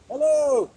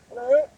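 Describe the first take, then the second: First: Loud hello, pitch dropping at the end; loud greeting that falls away; falling hello. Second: Loud hello lifting at the end; loud greeting that rises; rising hello. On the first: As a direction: call out hello and let it fall. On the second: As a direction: call out hello with an upward question lilt. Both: Shown as a demonstration.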